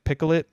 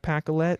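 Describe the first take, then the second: First: The name is pronounced with a different first vowel. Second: The name is pronounced just as it is spelled. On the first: The speaker calls it right. "You're supposed to say like Picolet" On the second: The speaker calls it wrong. "It's spelled like Pacolet"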